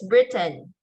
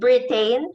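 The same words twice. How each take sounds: First: The final n forms a syllable without a vowel. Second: A clear vowel is heard before the final n. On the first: The speaker calls it right. "it's Britain" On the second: The speaker calls it wrong. "It's not Britain"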